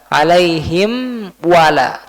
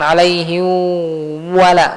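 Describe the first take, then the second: First: The m is pronounced clearly with lips closed. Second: The m is blurred, lips not fully closed. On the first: The speaker calls it right. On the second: The speaker calls it wrong.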